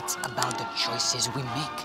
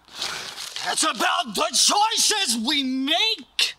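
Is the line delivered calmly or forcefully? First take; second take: calmly; forcefully. First: It is said calmly, with little emotion. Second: It is said forcefully, with big emotion.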